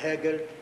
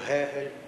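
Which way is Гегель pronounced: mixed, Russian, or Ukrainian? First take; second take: mixed; Ukrainian. First: The first and second G sounds differ. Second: Both G sounds follow the Ukrainian pattern. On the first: The speaker calls it right. "перше «Г», друге «Г»" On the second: The speaker calls it wrong. "неправильно по-українському"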